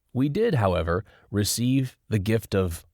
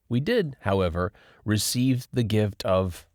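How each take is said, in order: Both takes have the same delivery.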